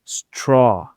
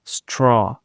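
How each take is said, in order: No difference in how they are said.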